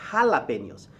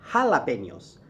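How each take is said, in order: No difference in how they are said.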